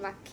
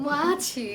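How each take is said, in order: First: The middle consonant is a 'kh' sound. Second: The middle consonant is a 'ch' sound. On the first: The speaker calls it wrong. "তোমাদের ভাইয়া কোনোদিনও মাছিরে মাছি বলে না" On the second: The speaker calls it right. "It's মাছি not মাখি"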